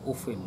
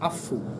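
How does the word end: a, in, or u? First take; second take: in; u. First: The word starts with u and ends in -in. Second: The word starts with a and ends in -u. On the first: This is the reading of Hafs. "qiraatul Hafs itu ufin" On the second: This is the Syrian reading. "Kalau Syam afu"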